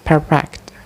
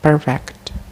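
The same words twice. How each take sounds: The two takes are said the same way.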